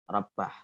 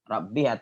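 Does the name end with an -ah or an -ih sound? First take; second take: -ah; -ih. First: The word ends with an -ah sound. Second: The word ends with an -ih sound. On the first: "ada yang membaca Abdur Rabbah" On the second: "Ada yang membaca Abdir Rabbih"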